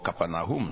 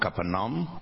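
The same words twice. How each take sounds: First: The name is said the way Israelis say it. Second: The name is said the usual English way.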